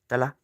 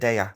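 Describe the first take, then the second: First: The double L is sounded as a clear L. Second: The double L is nearly silent.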